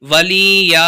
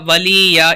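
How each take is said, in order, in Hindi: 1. स्वर खींचकर लंबे बोले जाते हैं। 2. स्वर खींचकर लंबे बोले जाते हैं।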